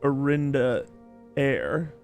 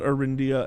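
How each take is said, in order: First: The name ends with an 'air' sound. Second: The name ends with an 'ee-ah' sound. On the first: The speaker calls it right. "It's Arinda Air" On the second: The speaker calls it wrong. "It's not Arindia at all"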